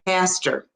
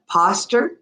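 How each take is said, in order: First: It is said in a New York accent. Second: It is said in a British accent. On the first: "around the New York area" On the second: "British English"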